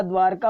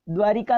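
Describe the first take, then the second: First: द्वारका in two beats, "dwaar-kaa"; no i after r. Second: द्वारिका with "ri" in the middle; i after r. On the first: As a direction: say द्वारका with r straight into k. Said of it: "द्वारका होता है". (द्वारका में "र" बिना इ के) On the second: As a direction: say द्वारिका as dwaa-RI-kaa. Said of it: "द्वारिका नहीं होता". (द्वारिका में बीच में "रि") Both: Shown as a demonstration.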